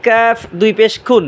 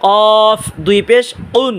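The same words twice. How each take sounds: First: "কাফ" with a light k, further forward than the tongue root; "কাফ" recited with a thin, aspirated k; forward Kaf. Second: "কফ" drawn out slowly with a heavy q from the tongue root; "উন" begun with a thick uvular q; thick Qaf. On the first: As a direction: bring the k of "খুন" forward on the palate. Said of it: "আগা থেকে একটু সামনে বাড়াবেন". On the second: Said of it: "কফ মোটা আওয়াজে উচ্চারণ করবেন". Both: Shown as a demonstration.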